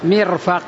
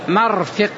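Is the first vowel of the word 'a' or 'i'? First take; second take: i; a. First: It is said mirfaq, with i then a. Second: It is said marfiq, with a then i. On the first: "والثاني كسر الميم وفتح الفاء" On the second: "أحدهما فتح الميم وكسر الفاء"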